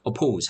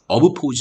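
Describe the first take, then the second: First: The word flows smoothly with one p sound. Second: The word breaks between ob and pose. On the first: The speaker calls it right. "한 번만 자 발음하도록" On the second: The speaker calls it wrong. "어브 포즈 하면 소리가 끊기죠"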